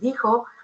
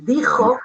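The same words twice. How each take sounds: First: The j is a soft breathy h sound. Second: The j is a rough velar throat sound. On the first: The speaker keeps the regional Andalusian pronunciation. "va a decir" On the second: The speaker switches to the Castilian standard pronunciation. "no lo va a decir"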